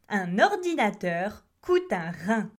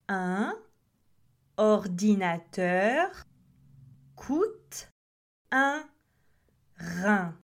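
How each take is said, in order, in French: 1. La phrase est prononcée rapidement, les mots s'enchaînent. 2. La phrase est prononcée lentement, mot par mot. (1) "essayons de dire cette phrase plus rapidement" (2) "Lorsque vous prononcez lentement"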